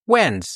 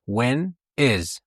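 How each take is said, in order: First: When is joined into when's; teacher showing the contraction; contracted when's. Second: Said in the usual way. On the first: Shown as a demonstration. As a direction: glide when is into one word when's. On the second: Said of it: "when is باید همیشه اینجوری".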